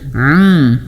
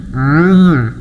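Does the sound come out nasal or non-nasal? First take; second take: nasal; nasal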